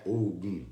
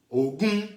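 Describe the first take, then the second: First: Ogum low, falling on the last syllable; low tone variant. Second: Ogum climbing to a high, held last syllable; high tone variant. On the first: Teacher showing how accent changes meaning, Ogum in low falling tone. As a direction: drop Ogum down to a low ending. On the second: Teacher showing how accent changes meaning, Ogum in high rising tone. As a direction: pitch Ogum high, rising firmly to the end. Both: Shown as a demonstration. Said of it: "conforme muda a acentuação, muda tudo".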